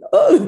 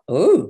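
First: The 'Oh' is pitched noticeably high. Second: The 'Oh' is pitched fairly low.

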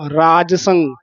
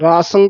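First: The j sound is fully pronounced. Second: The j sound is dropped from the word. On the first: The speaker calls it right. "ਜੱਜਾ ਪੂਰਾ ਬੋਲਣਾ ਹੈ" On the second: The speaker calls it wrong. "ਜੱਜਾ ਰਹਿ ਜਾਂਦਾ ਹੈ"

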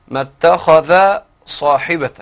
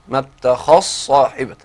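First: The dh sound is pronounced separately before s. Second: The dh sound is fully merged into s.

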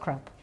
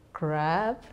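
First: The vowel is short and clipped. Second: The vowel is drawn out long. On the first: It is the rude everyday word. The speaker calls it wrong. "not CRAP" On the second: It names the acronym for checking sources. The speaker calls it right. "CRAP with a double A"

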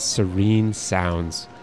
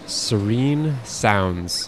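First: It is said in a soft, soothing voice. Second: It is said in an ordinary voice.

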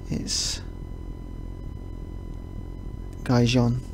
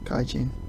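First: It is said more like the Spanish 'Gijón'. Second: It sounds like the Japanese word 'gaijin'. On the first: The speaker calls it right. "I think is how they pronounce it" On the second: The speaker calls it wrong. "I keep wanting to pronounce it Cajun, like what Japanese people call English people"

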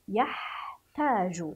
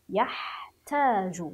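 The two takes are said the same way.

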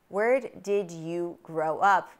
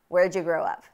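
First: The words 'did you' are said in full. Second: The words 'did you' are reduced to 'ja'. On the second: "Where did you grow up becomes where'd you grow up?"

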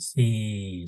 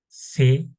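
First: The vowel is drawn out long. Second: The vowel is kept short. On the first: The speaker calls it wrong. "öğrenciler uzatarak okuyor" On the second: The speaker calls it right. "Uzatmadan okumasını öğrenelim"

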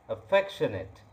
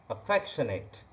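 No difference in how they are said.

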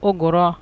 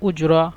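First: The middle consonant is a hard 'g' sound. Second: The middle consonant is a soft 'j' sound. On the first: This is the Egyptian regional form. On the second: This is the standard form.

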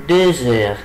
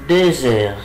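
Both takes have the same delivery.

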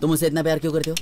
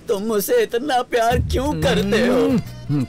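First: The line is said with little emotional depth. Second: The line is said with deep, heartfelt emotion. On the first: The speaker calls it wrong. "गहराई होनी चाहिए, गहराई" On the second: The speaker calls it right. "Good, यही सही है"

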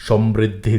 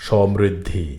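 The two takes are said the same way.

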